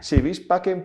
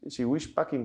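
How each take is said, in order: First: The word 'vis' starts with a B sound. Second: The word 'vis' starts with a W sound. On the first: This follows the official Latin of the Vatican. "yo digo bis porque el latín eh, oficial del Vaticano se dice bis" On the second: This is how some people say it. "como dicen algunos"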